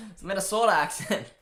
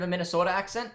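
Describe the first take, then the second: First: Mock Minnesota accent with an open, drawn O; joking attempt at a Minnesota accent. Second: Said in the usual way. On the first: Shown as a demonstration. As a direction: try on a Minnesota accent, amused. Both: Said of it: "I was trying to say it there".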